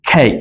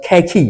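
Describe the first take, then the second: First: কেক with no final vowel; কেক, ending on the k sound; right way. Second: কেকি with the final ই sounded; কেকি, wrong on purpose, final ই spoken. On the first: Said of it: "কি বলছি?". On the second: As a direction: say কেকি, pronouncing the silent e as ই. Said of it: "এটা কিন্তু বলছি না". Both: Shown as a demonstration.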